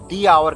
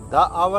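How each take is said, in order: First: The word 'the' is said with a long 'ee'. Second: The word 'the' is said with a short 'uh'. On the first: The speaker calls it right. "वहां पे इसको हम दी आवर कहेंगे" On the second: The speaker calls it wrong. "द आवर नहीं कहेंगे"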